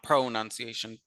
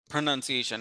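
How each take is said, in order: First: The first syllable is a full 'pro'. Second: The first syllable is a weak 'pra'. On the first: The speaker calls it wrong. "and not" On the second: The speaker calls it right. "pra and not pro"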